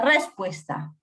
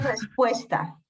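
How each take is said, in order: First: The stress is on the first syllable. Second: The stress is on the second syllable. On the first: The speaker calls it wrong. "Diría respuesta. Si fuera sobre esdrújula" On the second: The speaker calls it right. "Pero dice respuesta"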